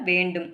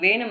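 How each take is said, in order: First: The word is said fully, with the 'nd' sound. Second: The word is reduced, without the 'nd' sound. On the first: This is the standard written form. The speaker calls it right. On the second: This is the casual spoken form. The speaker calls it wrong. "வேணும் இல்ல"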